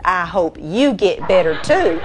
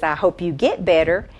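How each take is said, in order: First: YOU leaned on to turn the wish back; emphatic you, with too pitched up; stress on YOU. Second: Said in the usual way. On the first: Retold or imitated. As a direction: hit the word you, then lift on too. Lady turns the wish back.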